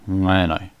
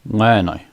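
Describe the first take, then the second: First: The word begins with a nasal ng sound. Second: The word begins with a nasal ng sound.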